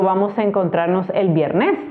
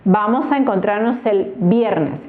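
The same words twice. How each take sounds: First: The stress is on the second syllable. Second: The stress is on the first syllable. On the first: The speaker calls it wrong. "No digo" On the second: The speaker calls it right. "Digo viernes"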